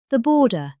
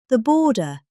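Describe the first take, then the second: No difference in how they are said.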